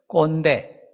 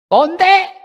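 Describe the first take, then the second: First: Said in the usual way. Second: "꼰대?" thrown up high and loud as a shocked question; "꼰대?" in a far higher, louder disbelieving voice; incredulous "꼰대?". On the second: Retold or imitated. Young people sneering at elders: "꼰대?" as a high, loud jeer.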